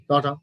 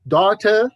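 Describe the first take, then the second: First: DAUGHTER lower, T played down; flat T. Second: DAUGHTER rising, with a clear T; British pronunciation. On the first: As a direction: say "daughter" with no weight on the T. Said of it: "the flat T sounds". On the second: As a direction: say "daughter" firmly, T released. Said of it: "British people, daughter". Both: Shown as a demonstration.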